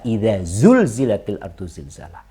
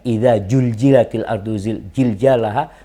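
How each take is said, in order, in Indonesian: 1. Konsonan kuncinya diucapkan sebagai bunyi z. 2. Konsonan kuncinya diucapkan sebagai bunyi j. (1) "Padahal antum bisa" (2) "nggak benar bacaan tersebut"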